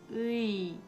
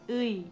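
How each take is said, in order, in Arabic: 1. يُمد الحرف المتحرك ببطء شديد. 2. يُنطق الحرف المتحرك بالسرعة العادية. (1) "Wenn man ganz langsam ausspricht" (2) "Wenn man normal spricht"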